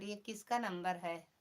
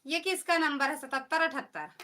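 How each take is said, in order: First: Said in the usual way. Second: Loud, higher-pitched insistent question; loud demand. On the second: Real, not acted. Asking the chat whose number this is, loud demand. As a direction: raise your voice to demand an answer.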